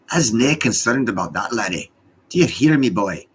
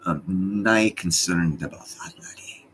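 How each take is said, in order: First: Louder, higher hammed-up Scottish accent. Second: Put-on a light, slow Scottish accent; lightly put-on Scottish burr, unhurried. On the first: Streamer teasing viewers in a loud, hammed-up Scottish accent. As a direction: bellow it like a Scots elder. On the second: Streamer teasing viewers in a slow, lightly done Scottish accent. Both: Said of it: "I'm speaking to you in my Scottish voice".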